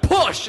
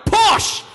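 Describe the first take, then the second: First: Higher, firm push command; mock doctor calling push; doctor urging. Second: Much higher, loud shouted push; mock doctor yelling push harder; doctor shouting. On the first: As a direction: bark the order at the mother cat. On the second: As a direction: yell it at the mother cat. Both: Doctor at kitten birth.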